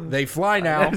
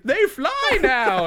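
First: It imitates Finn's voice. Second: It imitates C-3PO's voice.

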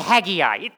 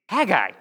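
First: The name has an extra vowel sound. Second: The name has no extra vowel sound. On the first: The speaker calls it wrong. "everybody adds a vowel to it" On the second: The speaker calls it right. "It's Haggai"

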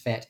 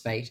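First: The vowel is a short 'eh' sound. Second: The vowel is a long 'ay' sound. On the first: This is how it is said in the UK. "in the UK it's fet" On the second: This is how it is said in Australia. "in Australia it's fate"

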